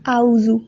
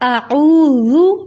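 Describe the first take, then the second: First: The first two vowels run together without a throat sound. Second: A throat consonant separates the first two vowels. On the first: The speaker calls it wrong. "हम इसको यूजुअली ऐसे ही पढ़ते हैं" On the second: The speaker calls it right. "आइन को पीछे हल्क से अदा करना है"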